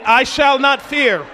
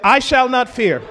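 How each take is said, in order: First: I shall not fear, slower and firmly punched; like you mean it. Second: Said in the usual way. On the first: Shown as a demonstration. Preacher urging the congregation to mean "I shall not fear", slow firm conviction. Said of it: "say it like you mean it". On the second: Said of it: "come on, let's say that".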